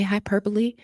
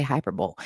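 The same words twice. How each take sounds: First: Hyperbole said "hy-PER-buh-lee"; four-syllable hyperbole, rising at the end; common pronunciation. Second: Hyperbole said "HY-per-bowl"; three-syllable hyperbole, falling at the end; preferred pronunciation. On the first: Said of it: "Sometimes I say hyperbole". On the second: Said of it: "but more often than not". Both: Shown as a demonstration.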